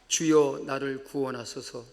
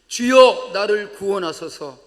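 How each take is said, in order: First: It is said at a softer volume. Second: It is said at a louder volume.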